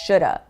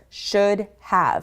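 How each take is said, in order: First: The words are reduced into one shoulda. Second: Two full words are pronounced clearly.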